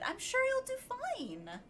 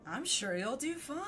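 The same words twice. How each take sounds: First: It is said in a peppy, nice tone. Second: It is said in a sarcastic tone.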